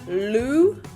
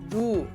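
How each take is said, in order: First: The tongue flicks hard for a strong L. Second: The consonant is a soft L-like sound. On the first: The speaker calls it wrong. "Don't flick your tongue too hard, so we're not going lu" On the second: The speaker calls it right. "Somewhere in between"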